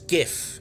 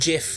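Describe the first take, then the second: First: It begins with a hard G sound. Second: It begins with a soft J sound. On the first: The speaker calls it right. "It's GIF. ... It has a G" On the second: The speaker calls it wrong. "It's not GIF. It doesn't have a J"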